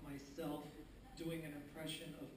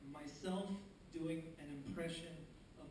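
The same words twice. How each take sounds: The two takes are said the same way.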